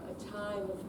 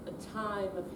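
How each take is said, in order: Both takes have the same delivery.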